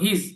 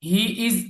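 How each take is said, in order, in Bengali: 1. দুটি শব্দ একসাথে মিশে একটি শব্দের মতো শোনায়। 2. দুটি শব্দ আলাদাভাবে বলা হয়।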